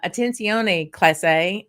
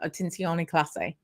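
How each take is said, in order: First: It is said with a heavy American Southern accent. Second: It is said with a native-sounding Spanish accent.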